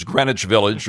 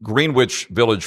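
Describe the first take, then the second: First: "Greenwich" said GREN-itch, with silent w; short first vowel in "Greenwich", no w sound; correct Greenwich pronunciation. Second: "Greenwich" said as spelled, GREEN-witch, slowly; mispronounced Greenwich. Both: Shown as a demonstration. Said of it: "pronouncing things".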